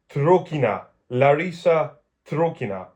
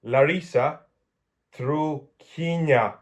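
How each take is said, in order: First: "Trukina" said as one word at a natural pace; joined-up Russian name. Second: "Larisa", pause, then "Trukina" very slowly by syllable; careful, halting reading of "Larisa Trukina"; sounding out Russian. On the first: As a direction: say "Larisa Trukina" more fluently, falling at the end. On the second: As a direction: decipher "Trukina" slowly, stretching each syllable. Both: Real, not acted. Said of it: "I can read Russian".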